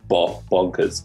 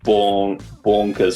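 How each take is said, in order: First: The O vowel is kept short. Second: The O vowel is held long. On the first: It sounds like the intended London accent. The speaker calls it right. "it's that short O vowel" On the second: It sounds a bit Australian rather than London. The speaker calls it wrong. "If you just hold on a second too long"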